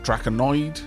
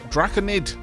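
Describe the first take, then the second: First: The word ends with an 'oid' sound. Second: The word ends with a short 'id' sound. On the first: The speaker calls it wrong. "not Draconoid" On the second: The speaker calls it right. "Draconid, not Draconoid"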